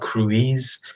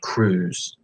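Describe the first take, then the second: First: The vowel is split into two sounds. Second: The vowel is one long oo sound. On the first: The speaker calls it wrong. "it's not cruise" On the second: The speaker calls it right. "Cruise makes like an oo sound"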